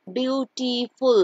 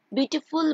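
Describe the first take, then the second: First: "beautiful" slowly split as beau-ti-ful; syllable by syllable. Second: Said in the usual way. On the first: Shown as a demonstration. Teacher counting syllables in "beautiful", slow and broken up. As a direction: stretch "beautiful" into separate beats. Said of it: "দুইবারে উচ্চারণ হচ্ছে".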